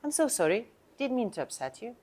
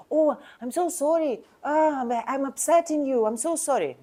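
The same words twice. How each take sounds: First: Calm apology. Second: Higher, gushing apology; overdone apology. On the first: Agent showing the right, calm way to say sorry. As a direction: apologize simply without gushing. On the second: Agent showing the wrong, fawning tone of apology. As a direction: lay the sorry on too thick. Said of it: "My tone is like". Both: Shown as a demonstration.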